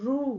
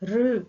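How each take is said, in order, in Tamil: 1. r க்கு அடுத்து long oo உயிர் வருகிறது. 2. r க்கு அடுத்து short u உயிர் வருகிறது.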